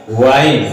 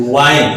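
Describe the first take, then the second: First: वाइन with an initial V, lips tucked in; lip-inward V. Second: वाइन starting with a W, lips pushed outward. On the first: Teacher contrasts two look-alike words for students, lips-in V pronunciation. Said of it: "होंठ अंदर की ओर आ रहा है". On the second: Teacher shows students lips going outward, W-sound pronunciation. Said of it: "बाहर की ओर जा रहा है". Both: Shown as a demonstration.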